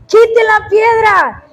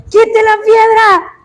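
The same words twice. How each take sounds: First: Slow, higher shouted order; emphatic command. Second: Slow, higher, stretched urging; urging quote. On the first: Pastor commanding the sister to remove the stone, slow shout. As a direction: hammer quite out slowly, shouting. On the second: Pastor telling the sister to remove the stone, slow emphatic plea. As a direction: plead slowly, leaning on quite. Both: Retold or imitated. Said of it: "hasta que le dije".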